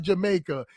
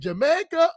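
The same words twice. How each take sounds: First: The word is said with a low pitch. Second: The word is said with a high pitch. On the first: "or is it low?" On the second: "Is it high"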